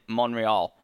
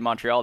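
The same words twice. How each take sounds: First: The T sound in the middle is dropped. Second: The T sound in the middle is pronounced. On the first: This is how locals in the city say it. "They say Montreal. Like, they don't say the T" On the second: This is how the speaker's own community says it. "how I would say Montreal"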